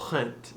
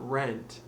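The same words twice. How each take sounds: First: The R sound is breathy and airy. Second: The R sound is plain, without breathiness. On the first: The speaker calls it right. "keep it breathy and airy" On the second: The speaker calls it wrong. "not rent"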